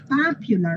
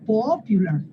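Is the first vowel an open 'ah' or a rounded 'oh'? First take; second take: open ah; rounded oh. First: The first vowel is an open 'ah' sound. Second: The first vowel is a rounded 'oh' sound. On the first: The speaker calls it right. "con esa misma A van a decir popular" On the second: The speaker calls it wrong. "no popular"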